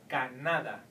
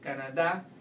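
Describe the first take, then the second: First: The stress is on the middle syllable. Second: The stress is on the last syllable. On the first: The speaker calls it wrong. "you will have to pronounce it like in the vowel rule" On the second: The speaker calls it right. "If you put it at the end, ... it would sound more like Spanish"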